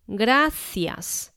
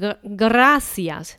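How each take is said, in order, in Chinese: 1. 这个 r 是单击音，不是颤音。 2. 这个 r 是滚动的颤音。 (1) "这个R 不是打大舌" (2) "你不要把它念成gracias，没有人这样子讲话哦"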